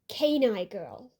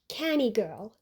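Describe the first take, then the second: First: The first word sounds like 'canine'. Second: The first word sounds like 'canny'. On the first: The speaker calls it right. "But they did it as Canine Girl, like canine" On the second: The speaker calls it wrong. "I mistakenly read it as Canny Girl"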